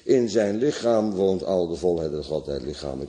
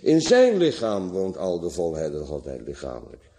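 First: It is said evenly, with no word emphasized. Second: It is said with strong emphasis on a word. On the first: "zonder klemtonen of wat dan ook" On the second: "En met klemtoon"

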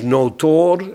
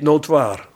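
First: The last vowel is a long plain 'oo'. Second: The last vowel is a gliding 'oi'. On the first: The speaker calls it right. "het is notoor" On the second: The speaker calls it wrong. "niet notoir"

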